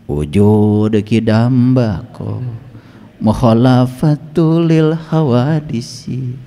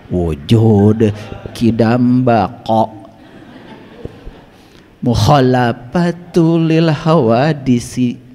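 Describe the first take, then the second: First: The consonants are articulated loosely and imprecisely. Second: The consonants are articulated carefully and precisely. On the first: The speaker calls it wrong. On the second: The speaker calls it right.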